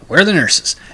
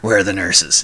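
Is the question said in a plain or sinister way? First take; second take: plain; sinister. First: The question sounds plain and innocent. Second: The question sounds sly and sinister. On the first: It is an ordinary request for directions. "But I didn't say it that way" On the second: It sounds like a villain plotting something. "and I'm rubbing my hands together, like, you know, ha, ha, ha"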